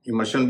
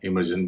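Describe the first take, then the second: First: The ending is pronounced with a 'sh' sound. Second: The ending is pronounced with a 'zh' sound. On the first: "शन और यन दोनों उच्चारण चलते हैं" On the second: "शन और जन"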